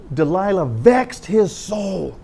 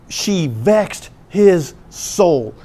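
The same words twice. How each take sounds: First: "vexed" hit, phrase said slowly; stress on vexed. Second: "She vexed his soul" said very slowly, stress on "his"; solemn emphasis. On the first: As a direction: lean hard on "vexed". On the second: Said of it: "It says". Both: Shown as a demonstration.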